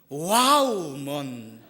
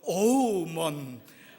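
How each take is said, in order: First: The first syllable sounds like 'wow'. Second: The word starts with an 'uh' before 'woo'. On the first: Women seem moving and beautiful to him. "감격적이고 아름다운 분은 와우먼 이렇게 되고" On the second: Women bring him constant conflict. "정말 경기가 일어나고... 이런 사람은 어우먼"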